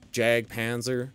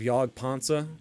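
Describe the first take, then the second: First: The name is said with a North American accent. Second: The name is said with a non-American accent.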